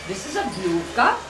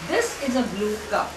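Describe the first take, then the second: First: The voice rises at the end. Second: The voice falls at the end. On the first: It is a surprised question. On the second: It is a plain statement.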